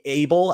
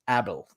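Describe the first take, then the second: First: The name has an English pronunciation. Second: The name has a Dutch pronunciation. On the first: This is how English speakers would say it. "I guess we would pronounce it" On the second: This is how the characters in the film say it. "they pronounced it Abel the entire time"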